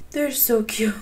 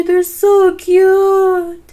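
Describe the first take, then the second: First: Breathy whisper of delight; whispered adoration. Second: High, loud, slow gushing; drawn-out squeal. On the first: Gamer whispering over the baby goat, soft and adoring. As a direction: hush it like a secret. Same words whispered after. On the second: Gamer cooing at a baby goat, slow high squeal. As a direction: stretch it out in adoration. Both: Real, not acted.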